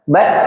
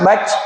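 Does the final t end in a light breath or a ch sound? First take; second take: breath; ch sound. First: The final t is released with light breath. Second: The final t is released as a harsh ch. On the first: The speaker calls it right. "Tapi yang keluar hanya nafas" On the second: The speaker calls it wrong. "Kebanyakan hamasnya sampai becek"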